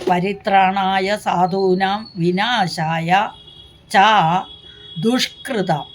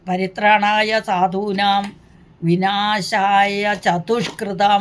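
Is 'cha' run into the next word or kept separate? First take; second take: separate; joined. First: 'Cha' is kept apart from the following word. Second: 'Cha' is run together with the following word. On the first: It refers to those who do evil deeds. The speaker calls it right. "അങ്ങനെയല്ല" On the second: The reciter does not understand the meaning. The speaker calls it wrong. "എന്ന് ചൊല്ലുന്ന ആൾക്കാരുണ്ട്. അർത്ഥമൊന്നും മനസ്സിലാകാതെ ചൊല്ലിയത് കൊണ്ടാണ്"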